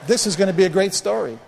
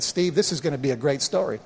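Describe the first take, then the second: First: Raised, more forceful delivery of the quote; emphatic retold message. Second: Understated retelling of a reassuring voice; Father God's message. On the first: Pastor repeating God's words to congregation, emphatic. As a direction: proclaim the quoted promise to the room. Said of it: "That's why I keep telling the story". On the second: Retold or imitated. God speaking to pastor in the water, understated reassurance. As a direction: quote it evenly, settling down at the end. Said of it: "my father spoke to me and said".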